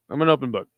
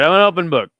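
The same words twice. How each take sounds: First: Said in the usual way. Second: Much louder I'm an open book, punched out; loud declaration. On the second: Real, not acted. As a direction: shout it to the chat. Repeats the phrase twice.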